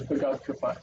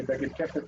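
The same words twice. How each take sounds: First: "begad kefat" with a-vowels in the second syllables; learned classroom pronunciation. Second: "beged kefet" with e-vowels throughout; Israeli pronunciation. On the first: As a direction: say "begad kefat" as be-GAD ke-FAT. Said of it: "which you probably learned as". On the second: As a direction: say "beged kefet" as BE-ged KE-fet. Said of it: "In Israel, we say". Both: Shown as a demonstration.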